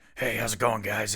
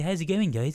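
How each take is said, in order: First: It is said in a Batman-style voice. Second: It is said in a bumbling British accent.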